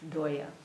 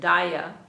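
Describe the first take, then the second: First: It has the Bengali 'o' vowel. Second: It has the Sanskrit 'a' vowel.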